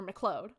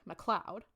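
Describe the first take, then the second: First: MacLeod said as muh-CLODE, long o; alternative pronunciation. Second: MacLeod said as muh-CLOUD; first pronunciation. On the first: Podcaster correcting a Scottish surname, MacLeod as muh-CLODE. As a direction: say MacLeod to rhyme with "road". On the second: Podcaster trying out a Scottish surname, MacLeod as muh-CLOUD. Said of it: "Or MacLeod". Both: Shown as a demonstration.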